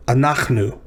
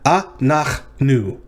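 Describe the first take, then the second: First: Said in the usual way. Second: "a, nach, nu" split into three separate beats; syllable by syllable. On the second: Shown as a demonstration. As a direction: pause after each syllable of "a, nach, nu". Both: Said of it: "So this is three syllables".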